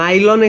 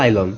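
First: The word begins with an N sound. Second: The word begins with an L sound. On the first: The speaker calls it wrong. "নাইলন এখানে উচ্চারণ হয় কিন্তু লাইলন হবে" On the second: The speaker calls it right. "উচ্চারণটা এইভাবে হবে লাইলন"

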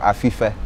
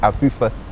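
First: The middle consonant is a plain f sound. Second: The middle consonant is a soft p-h sound. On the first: This is how outsiders say the name. The speaker calls it wrong. "a town that you people might call Afife" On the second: This is how locals say the name. The speaker calls it right. "It's Afife. That's how it is"

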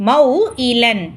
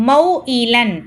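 The two takes are said the same way.

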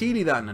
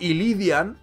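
First: The name ends in '-dan' with no extra vowel. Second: The name ends in '-dian' with an extra 'i' sound. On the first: The speaker calls it right. "tu amigo encima sabe que es Illidan" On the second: The speaker calls it wrong. "el tío mete una I más"

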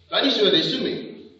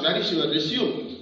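First: The last word ends with a 'may' sound. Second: The last word ends with a 'zoom' sound. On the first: The word means a summary of one's career. The speaker calls it right. "You have to ask like this" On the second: The word means to continue after a break. The speaker calls it wrong. "Don't ask"

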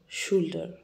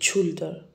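First: The word begins with an sh sound. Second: The word does not begin with sh. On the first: The speaker calls it right. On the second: The speaker calls it wrong. "We don't say shoulder"

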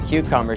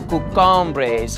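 First: The word is said in a plain accent. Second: The word is said in a put-on accent. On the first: "She wouldn't say cucumbers" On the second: "she would say cucumbres"

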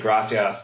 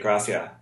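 First: The final s sound is clearly pronounced. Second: The final s sound is dropped. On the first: "whereas we'd say gracias" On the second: "they eat their words"

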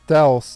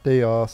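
First: The name does not rhyme with chaos. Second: The name rhymes with chaos. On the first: The speaker calls it right. "it's actually Daos" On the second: The speaker calls it wrong. "if you change the D with a C, it's Chaos"

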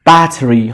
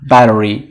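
First: It is said in a non-American accent. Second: It is said in an American accent.

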